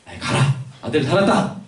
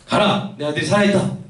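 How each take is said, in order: First: Mildly annoyed, get-rid-of-you tone; mock offhand dismissal; dismissive brush-off. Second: Said in the usual way. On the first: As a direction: wave someone away impatiently. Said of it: "귀찮으니까 그냥, 그냥 떨치려고". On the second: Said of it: "예수님의 말씀".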